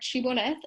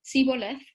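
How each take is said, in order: First: The word begins with an 'sh' sound. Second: The word begins with an 's' sound. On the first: This is the form the word was supposed to have. "they were forced to say the, the word shibboleth" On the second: The speaker belongs to the other tribe. "some of them pronounced it siboleth"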